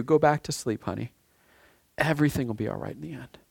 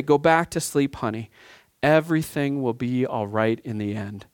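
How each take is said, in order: First: Put-on soft, hushed comfort to a frightened child; tender, quiet reassurance; soothing a child. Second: Lightly voiced mother calming a scared kid; mother soothing child. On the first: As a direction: speak it softly, like tucking a child in. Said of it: "God is saying to you". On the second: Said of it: "you hear the mother's voice say".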